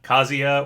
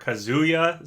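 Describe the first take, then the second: First: The middle vowel is short and quick. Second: The middle vowel is a drawn-out oo. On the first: "whether you say it quick" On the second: "or not"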